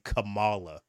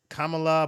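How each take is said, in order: First: The name is said in a Black American style. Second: The name is said in an Indian style. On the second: "she wants to pronounce the name Indian"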